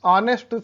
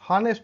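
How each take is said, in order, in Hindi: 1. शब्द सीधे स्वर की ध्वनि से शुरू होता है। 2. शब्द की शुरुआत में साफ़ h की ध्वनि सुनाई देती है। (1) "ऑनेस्ट सुनते हैं" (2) "हॉनेस्ट नहीं"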